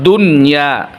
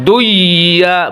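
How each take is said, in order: First: The n sound is pronounced clearly before y. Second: The n sound is dropped, merging into y. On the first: The speaker calls it right. "nun di sini tetap jelas" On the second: The speaker calls it wrong. "bukan duya"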